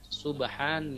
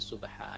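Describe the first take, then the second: First: The word ends with a nasal n sound. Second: The word ends with a long open vowel. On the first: The reader continues without stopping. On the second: The reader stops at this word.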